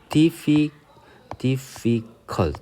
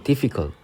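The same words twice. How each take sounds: First: "difficult" broken slowly into dif-fi-cult, with pauses between; three separate syllables. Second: Said in the usual way. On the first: Shown as a demonstration. Teacher counting syllables for learners, "difficult" in three separate beats. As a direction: sound out "difficult" syllable by syllable, drawn far apart. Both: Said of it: "그러니까 삼음절이 되죠".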